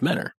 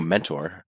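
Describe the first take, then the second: First: The t sound after the n is dropped. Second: The t sound after the n is pronounced. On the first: This is how locals say the town's name. "We uh we pronounce it Menor" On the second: This is the ordinary word. "I know mentor"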